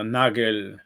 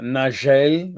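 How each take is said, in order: First: The name is pronounced in a German way. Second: The name is pronounced in a French way. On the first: The speaker calls it right. "which is pronounced something like" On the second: The speaker calls it wrong. "which is the French pronunciation"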